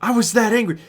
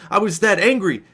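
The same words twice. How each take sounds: First: That pushed up as the peak word; stress on that. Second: Said in the usual way. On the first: Shown as a demonstration. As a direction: lean hard on that.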